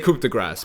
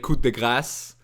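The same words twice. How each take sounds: First: It is pronounced with an English pronunciation. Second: It is pronounced with a French pronunciation. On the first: "I'm just gonna say coup de grace because like it's faster, it's easier for me to say" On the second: "the French way"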